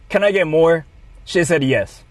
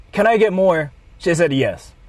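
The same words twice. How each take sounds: The two takes are said the same way.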